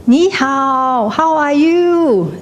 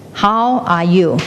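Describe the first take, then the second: First: High, drawn-out calling out; cliff-top shout. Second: Echo shouting back. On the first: Someone on top of a cliff greeting the world, shouting. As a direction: call it slowly across a valley. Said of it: "you shout". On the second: The world shouts back from the cliff, slow echo. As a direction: echo it back slowly, without straining. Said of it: "It will shout back". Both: Acted.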